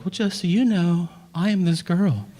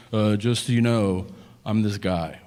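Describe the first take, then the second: First: High-pitched put-on girl introducing herself; dating girl's act. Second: Low-pitched put-on man introducing himself; dating guy's act. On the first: Girl answers guy while dating, high put-on act. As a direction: play a girl presenting herself on a date, pitched up. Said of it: "And the girl's like". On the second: Guy introduces himself while dating, low put-on act. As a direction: play a guy presenting himself on a date, pitched down. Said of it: "dating is a guy going".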